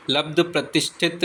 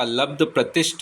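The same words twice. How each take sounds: First: प्रतिष्ठित ending in "-thit"; wrong ending. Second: प्रतिष्ठ ending on "shth"; correct ending. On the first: Teacher showing the mistake, प्रतिष्ठित with final "-it". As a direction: add "it" to the end of प्रतिष्ठित. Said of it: "लब्ध प्रतिष्ठित नहीं होता". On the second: Teacher giving the correction, प्रतिष्ठ closed on "shth". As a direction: stop प्रतिष्ठ without "it". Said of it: "लब्ध प्रतिष्ठ होता है". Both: Shown as a demonstration.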